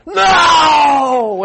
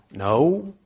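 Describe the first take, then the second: First: High, loud shouted no; emphatic no. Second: Said in the usual way. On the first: Pretend. Fishermen shout back at the stranger, emphatic and loud. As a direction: shout the no at him. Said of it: "the emphatic form". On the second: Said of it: "There's the straight form".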